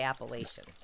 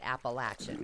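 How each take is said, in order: First: The third syllable does not sound like latch. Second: The third syllable sounds like latch. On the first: This is how people from outside the region say it. "People who live outside say Appalachian" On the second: This is how people from the region say it. "they pronounce it Appalachian as in latch"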